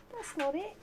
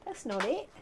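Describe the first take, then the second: First: High sing-song to a dog; pet voice. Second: Said in the usual way. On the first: Real, not acted. Owner correcting the dog, high sing-song. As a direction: lift it up like talking to a puppy.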